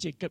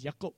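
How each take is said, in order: First: The name begins with a J sound. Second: The name begins with a Y sound. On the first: The speaker calls it wrong. "So it's not even Jacob" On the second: The speaker calls it right.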